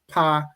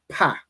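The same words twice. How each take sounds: First: The vowel is held longer and softer. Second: The vowel is cut short and sharp. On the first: It is a word meaning mouth. "Pa is mouth" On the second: It names the letter. "but pa is the letter"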